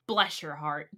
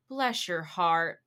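First: It sounds insulting and condescending. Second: It sounds sympathetic and pitying.

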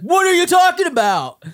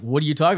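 First: It is said loudly and excitedly, like yelling. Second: It is said calmly, as a plain question.

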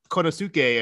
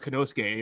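First: The name is said with an American pronunciation. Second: The name is said with a Japanese pronunciation. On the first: The speaker calls it wrong. "I want to say Konosuke" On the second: The speaker calls it right. "and I know it's Konosuke"

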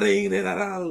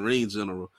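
First: General is slurred so it sounds like and all. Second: The word general is said clearly and plainly. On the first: "why you say it like that" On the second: "I like how he ain't saying ring general"

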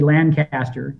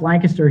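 First: It uses the pronunciation heard in England. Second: It uses the local Pennsylvania pronunciation. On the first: This is how most other places named Lancaster say it. "its English brethren, which would be Lancaster" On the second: This is how people in the local area say it. "It is pronounced Lancaster here"

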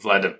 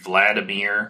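First: The name is said the Russian way. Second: The name is said the Western way. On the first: The speaker calls it right. "the way that you pronounce Vladimir Putin's name, like Vladimir?" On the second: The speaker calls it wrong. "I feel like such a Westerner, you know, because I'm like Vladimir Putin"

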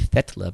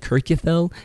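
First: The double L sounds like TL. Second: The double L is a plain L sound. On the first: The speaker calls it right. "is actually Fetla, because the double L is a sound" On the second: The speaker calls it wrong. "The thing I've always said"

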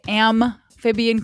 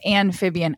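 First: The first consonant is an M sound. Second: The first consonant is an N sound. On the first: The speaker calls it right. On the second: The speaker calls it wrong.

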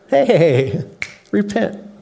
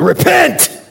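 First: It is said cheerfully, with a smile. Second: It is said sternly, without a smile.

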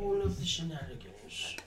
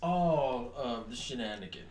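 First: It is said in a put-on English accent. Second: It is said in the speaker's plain accent.

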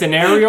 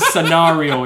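First: The word is pronounced in a plain, ordinary way. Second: The word is pronounced in a showy, affected way.

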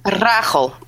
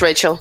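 First: It has a rolled R and a harsh throaty sound. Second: It has an English R and a soft ch sound. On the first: This is the original form of the name. "so it has the rolling R at the start and then the hard which the Dutch is known for" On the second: This is the easier adapted form of the name. "Just Rachel"

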